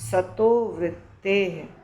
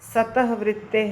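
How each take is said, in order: First: The first word ends with an 'o' sound. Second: The first word ends with a breathy 'ah' sound. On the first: The speaker calls it right. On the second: The speaker calls it wrong.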